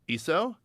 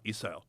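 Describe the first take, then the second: First: The pitch rises at the end. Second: The pitch falls at the end. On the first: It asks whether the listener has it. "change our intonation to create questions. ... You have that?" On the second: It states that the listener has it. "you have that"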